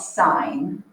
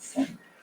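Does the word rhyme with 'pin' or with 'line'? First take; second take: line; pin. First: The vowel is long, rhyming with line. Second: The vowel is short, rhyming with pin. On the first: The speaker calls it right. "so I'm going to put actually how we pronounce it. That's called sine" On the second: The speaker calls it wrong. "If someone calls this sin, that's not sin"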